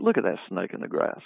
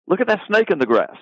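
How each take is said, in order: First: Softer, lower, knowing remark; sly aside. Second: Higher, urgent call of a real snake spotted; alarmed warning. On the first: At a crowded party, pointing out a deceiver to a friend, sly and quiet. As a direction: murmur it to a friend about a backstabber at the party. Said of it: "if we're in a room, a big party". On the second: Out hunting in a field and warning a friend, alarmed. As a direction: point it out like a hunter who just saw a snake. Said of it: "If we're out in a field hunting". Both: Retold or imitated.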